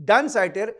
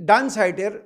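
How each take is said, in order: No difference in how they are said.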